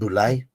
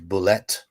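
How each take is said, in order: First: The word ends with an 'ay' sound. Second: The word ends with an 'et' sound. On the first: The speaker calls it wrong. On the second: The speaker calls it right.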